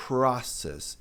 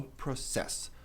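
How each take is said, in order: First: "Process" as PRA-cess with airy P; first syllable stressed, puff after P in "Process"; correct pronunciation. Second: "process" stressed as pro-CESS; weight on the final syllable of "process"; wrong pronunciation. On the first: Teacher contrasts two takes, correct aspirated English word. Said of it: "Process e não process". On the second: Teacher shows what to avoid, stress wrongly on CESS. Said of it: "e não process". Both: Shown as a demonstration.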